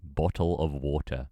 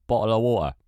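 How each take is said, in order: First: Slow, fully sounded "Bottle of water"; careful pronunciation. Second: Loud, high, run-together "bottle of water"; British pronunciation attempt. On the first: British streamer testing their slipping accent, slow careful "Bottle of water". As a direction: say "Bottle of water" slowly, every syllable sounded. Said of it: "I can't even say bottle of water". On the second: Streamer frustrated at losing British accent, loud run-together "bottle of water". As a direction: blurt "bottle of water" loud and loosely joined. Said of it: "Losing my touch". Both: Shown as a demonstration.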